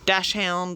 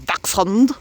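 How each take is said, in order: First: The word begins with a 'dash' sound. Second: The word begins with a 'dacks' sound. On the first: This is the common everyday way to say it. The speaker calls it wrong. "I'm saying dash hound wrong, but most people say it wrong" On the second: This way sounds unfamiliar to most people. The speaker calls it right. "If I say dachshund, um, everyone's going to be like, ooh, what's that?"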